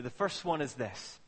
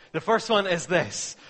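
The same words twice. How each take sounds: First: Said in the usual way. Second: Loud fresh restart after a joke; playful louder restart; mock restart, louder. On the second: Shown as a demonstration. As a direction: start again, louder. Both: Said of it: "God, I'm just joking".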